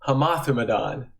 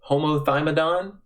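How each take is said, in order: First: It is said with Greek-style pronunciation. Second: It is said in a Southern American accent. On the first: The speaker calls it right. "It's actually pronounced" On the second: The speaker calls it wrong. "my uneducated Southern pronunciation"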